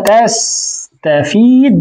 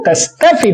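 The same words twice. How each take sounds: First: تستفيد said very slowly with a long ياء; long vowel form. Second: تستفد said slowly with a short i and no ياء; tستفد drawn out slowly, clipped vowel before the د; short vowel form. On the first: Teacher to students, contrasting the full تستفيد slowly. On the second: Teacher to students, showing the jussive تستفد slowly. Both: Shown as a demonstration. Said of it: "لماذا قلت تستفد وليس تستفيد".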